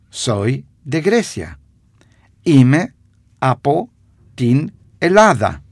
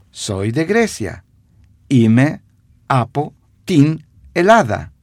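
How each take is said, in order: Both takes have the same delivery.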